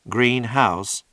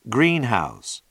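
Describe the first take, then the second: First: The stress is on house. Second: The stress is on green.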